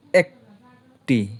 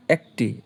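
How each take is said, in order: First: Very slow, stretched একটি; একটি held long and slow; drawn-out. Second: Said in the usual way. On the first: Shown as a demonstration. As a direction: stretch একটি out to show it can't split. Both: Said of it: "এইটারে কিন্তু ভাঙতে পারবে না".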